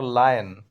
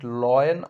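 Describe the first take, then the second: First: "lion" said as LIE-en; "lion" with first syllable like "lie"; second pronunciation option. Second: "lion" said as LOY-en; "lion" with first syllable like "loy"; first pronunciation option. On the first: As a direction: say "lion" with an eye vowel, LIE-en. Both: Shown as a demonstration. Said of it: "What is the correct pronunciation?".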